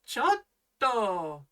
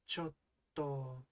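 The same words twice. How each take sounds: First: The word is yelled loudly and sharply. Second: The word is said softly and hesitantly. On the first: Hey, that's rude. "if you sort of yell chotto" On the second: Something is difficult to do. "in a really hesitant little way like chotto"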